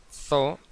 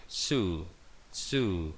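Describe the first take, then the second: First: "zoo" with a Spanish th and an o, "tho"; lectura a la española. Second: "zoo" as English "zuu" with a buzzing Z, lower; S sonora. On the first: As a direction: say "zoo" wrongly as read in Castilian. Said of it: "no se dice zoo en inglés". ("zoo" mal dicho, con zeta castellana y o) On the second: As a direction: model "zoo" with vibrating Z and long u. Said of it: "tenemos la vibración de esa S". ("zoo" con ese sonora, como un zumbido) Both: Shown as a demonstration.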